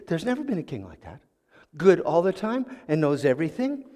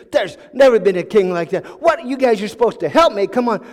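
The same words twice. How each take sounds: First: Quiet, skeptical irritation; mildly irritated. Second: Louder, exasperated protest; really upset. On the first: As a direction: push back with contained annoyance. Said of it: "got a little irritated". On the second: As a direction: protest as if you are being mocked. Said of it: "he got really upset". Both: Acted.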